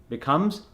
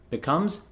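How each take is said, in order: The two takes are said the same way.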